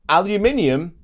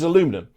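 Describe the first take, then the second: First: The word is said with five syllables. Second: The word is said with four syllables.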